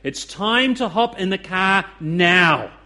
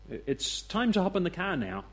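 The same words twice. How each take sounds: First: It is said firmly, as a stern instruction. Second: It is said lightly, as a gentle suggestion. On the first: The listener must obey or face consequences. "The other sounds very much like an instruction to children" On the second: The listener is invited but not required to act. "One sounds like a suggestion"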